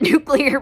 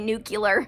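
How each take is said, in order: First: The word is said as nuke-lee-er. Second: The word is said as nuke-yoo-ler. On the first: The speaker calls it right. "Thank God I said it right" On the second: The speaker calls it wrong. "I can't stand when people say nuclear"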